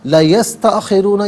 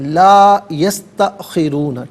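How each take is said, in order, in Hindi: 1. 'la' में स्वर छोटा काटा जाता है। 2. 'la' में स्वर दो मात्रा तक खींचा जाता है। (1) "ये गलत है" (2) "ठीक है ना"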